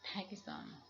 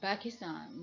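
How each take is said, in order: First: The word begins with a p sound. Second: The word begins with a b sound. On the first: The speaker calls it right. "not Pakistan" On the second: The speaker calls it wrong.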